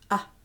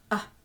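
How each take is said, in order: First: The vowel is held only briefly. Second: The same.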